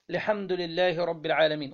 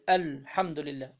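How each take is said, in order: First: Said in the usual way. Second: الحمد لله said with the long alif in لله cut short; الحمد لله with its alif dropped, a demo of the mistake. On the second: Shown as a demonstration. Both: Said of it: "أسقط الألف".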